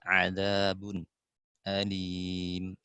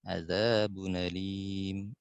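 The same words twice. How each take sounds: First: A brief silent pause comes before the hamza. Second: The hamza drops and the sounds run together. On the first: "terakhir saktah" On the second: "Nakal dulu"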